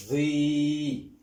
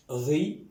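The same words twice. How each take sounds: First: "Ri" with the i held long and level; long vowel. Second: "Ri" with a brief i, rising; short vowel. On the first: Teacher reading out the syllables, "Ri" drawn out. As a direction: sustain the i of "Ri" on one note. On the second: Teacher reading out the syllables, "Ri" kept short. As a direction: say "Ri" short, lifting at the end. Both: Shown as a demonstration. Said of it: "Je lis".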